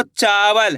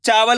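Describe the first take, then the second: First: "चावल" with a long, held "चा"; drawn-out first syllable. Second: Said in the usual way. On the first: Shown as a demonstration. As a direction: stretch the aa in "चावल", then let it fall. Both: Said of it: "चा का उच्चारण यहाँ पे खींच को रहा".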